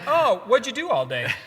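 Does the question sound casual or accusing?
casual. It sounds light and casually curious.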